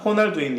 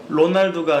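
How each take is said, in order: First: The name begins with an H sound. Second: The name begins with an R sound. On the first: The speaker calls it right. "맨 앞에 있는 R이나 두 개가 겹친 알알 발음은 H로 되고요" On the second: The speaker calls it wrong. "로날두가 아니라"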